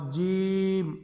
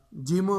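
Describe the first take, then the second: First: جیم with a long drawn "ee"; correct long jeem. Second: جیم shorter, with a loose vowel after the M; wrong jeem. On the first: Teacher models the letter, long vowel. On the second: Teacher shows the error, loose ending. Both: Shown as a demonstration. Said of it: "اس طرح نہیں پڑھ رہا".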